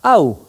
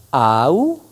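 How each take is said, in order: First: Au glided into one syllable and said louder; right way. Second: Au split into two separate vowels a and u; wrong way. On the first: Teacher showing the correct pronunciation. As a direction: run au together as one sound. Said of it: "on dit". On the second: Teacher showing the wrong pronunciation. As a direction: say au as two syllables. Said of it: "au lieu de dire". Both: Shown as a demonstration.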